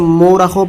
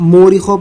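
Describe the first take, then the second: First: It begins with an 'o' sound. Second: It begins with a long 'oo' sound. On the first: "बहुत से लोग इसे मोरखों पढ़ते हैं" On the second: "बहुत से लोग इसको मूरिखों पढ़ते हैं"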